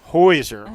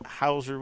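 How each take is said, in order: First: The first syllable rhymes with 'boy'. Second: The first syllable rhymes with 'how'. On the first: The speaker calls it right. "not at all how it looks" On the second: The speaker calls it wrong. "I said it wrong"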